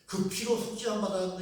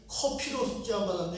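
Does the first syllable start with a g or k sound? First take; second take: g sound; k sound. First: The first syllable starts with a soft g sound. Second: The first syllable starts with a harsh k sound. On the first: The speaker calls it right. "해야 되는데" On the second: The speaker calls it wrong. "커로 발음한다는 거예요"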